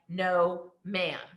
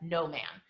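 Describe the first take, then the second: First: It is said as two separate words. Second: It is said run together as one word.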